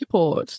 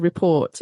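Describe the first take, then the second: First: The stress is on the first syllable. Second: The stress is on the second syllable. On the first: The speaker calls it wrong. "They put the stress on the first part" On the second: The speaker calls it right. "No, it's a report"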